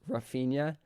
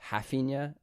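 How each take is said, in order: First: The name begins with an R sound. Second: The name begins with an H sound.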